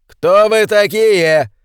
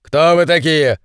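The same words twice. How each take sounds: First: High, slow, loud demand; loud wary challenge. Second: Said in the usual way. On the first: A narrator's reading. Colonel challenges gunmen on road, loud and slow. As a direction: call out to the armed strangers. Armed men block the road. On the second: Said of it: "спросил полковник".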